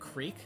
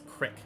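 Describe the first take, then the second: First: The vowel is long, as in 'creek'. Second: The vowel is short, as in 'crick'.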